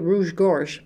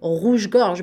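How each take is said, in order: First: It is said with an English-speaker's accent. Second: It is said with a native French accent. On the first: "pas dire rouge-gorge, parce que les anglophones" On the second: "Je vais dire rouge-gorge"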